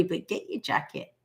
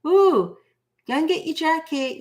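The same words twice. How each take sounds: First: Soft whisper of the universe; a hushed inner voice, softer; whispered nudge. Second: Higher, eager voice of the universe; the universe's voice, pitched higher and louder; universe nudging, higher. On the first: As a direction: whisper the reminder. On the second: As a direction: call out the reminder higher and brighter. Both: Retold or imitated. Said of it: "the universe will always say".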